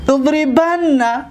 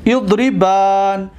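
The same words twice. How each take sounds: First: "اضربن" said slowly as idribanna, doubled n; short a and held nn in "اضربن"; "اضربن" as idri-ban-na, leaning on the n; alif dropped. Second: "اضربن" said slowly with a long aa before the final n; "اضربن" as idri-baan, long vowel held; long alif. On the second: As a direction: stretch the last vowel of "اضربن" into idribaan. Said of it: "الف را بگیریم". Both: Shown as a demonstration.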